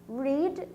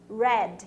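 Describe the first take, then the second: First: It does not sound like the colour red. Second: It sounds like the colour red. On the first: It is the present tense. "Read no presente, de ler" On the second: It is the past tense. "no passado, red, que nem a cor"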